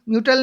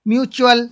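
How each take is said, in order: First: The middle consonant is a plain 't' sound. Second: The middle consonant is a 'ch' sound. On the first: The speaker calls it wrong. "म्यूटल नहीं बोलेंगे" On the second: The speaker calls it right.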